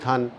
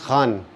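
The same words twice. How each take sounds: First: It begins with a plain aspirated k. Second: It begins with a raspy throat fricative. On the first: It means a mine, as in a coal mine. The speaker calls it wrong. "अगर आप खान बोल दोगे तो खान मतलब होता है जो कोयले की खान" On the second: It is the family name. The speaker calls it right. "मेरा नाम है [name]"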